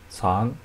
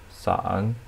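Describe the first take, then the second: First: The pitch rises from mid to high. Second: The pitch dips low, then rises.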